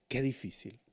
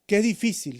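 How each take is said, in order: First: Softer sigh of Qué difícil, falling on Qué; a quiet, heavy Qué difícil; soft lament. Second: Louder, higher Qué difícil with Qué hit hard; a raised, urgent Qué difícil; crying out. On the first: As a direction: murmur Qué difícil to yourself. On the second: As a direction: cry out Qué difícil to the Lord. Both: Acted. Repeated lament, soft then loud.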